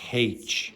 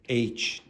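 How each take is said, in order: First: It starts with a consonant h sound. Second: It starts with a vowel sound. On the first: This is the Irish way of saying it. "in Ireland we pronounce it with a consonant sound at the start" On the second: This is the non-Irish way of saying it. "no Irish person says H"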